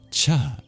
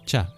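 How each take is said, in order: First: The consonant is said with a puff of breath. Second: The consonant is said without a puff of breath. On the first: "the breathy palatal plosive" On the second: "this is a palatal plosive"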